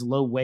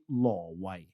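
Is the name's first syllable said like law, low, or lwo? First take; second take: low; law. First: The first syllable sounds like 'low'. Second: The first syllable sounds like 'law'. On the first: This is the common English reading of the spelling. The speaker calls it wrong. "everyone says Lo Wei" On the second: This is how the name is said in Cantonese. The speaker calls it right. "Cantonese would be Law Wai"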